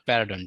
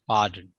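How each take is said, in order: First: "pardon" wrongly split into three syllables, peh-ra-DON; mispronounced pardon. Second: "Pardon" in two syllables, PAH-dn, low falling pitch; correct pardon. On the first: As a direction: say "pardon" as "perradon", with an extra vowel. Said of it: "Pa-, not pardon". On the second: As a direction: model "Pardon" as "PAH-dun", no extra vowel. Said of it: "not pardon, dear". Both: Shown as a demonstration.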